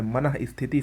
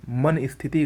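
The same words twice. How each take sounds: First: मनः स्थिति with "ma-nah"; correct pronunciation. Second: मन स्थिति with "man" ending on n; no h after मन in मन स्थिति; wrong pronunciation. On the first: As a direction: sound the h ending मनः. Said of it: "सही होगा". (मनः में विसर्ग बोलें) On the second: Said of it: "गलत है". (मन स्थिति बिना विसर्ग के) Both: Shown as a demonstration.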